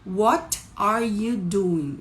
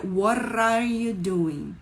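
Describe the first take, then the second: First: Slow "what are you doing" with T sounded; word-by-word "what are you doing"; unlinked "what are". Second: T in "what are" becomes R-like tap; linked, slow "what are you doing". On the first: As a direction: separate "what" from "are" with a clear T. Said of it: "esse T, muitas vezes". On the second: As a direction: slowly run "what are" together as "wha-rar". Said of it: "Vira what are you doing?". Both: Shown as a demonstration.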